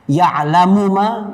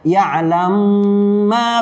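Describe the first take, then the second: First: The first word ends with a full vowel. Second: The final vowel is dropped and the sounds merge.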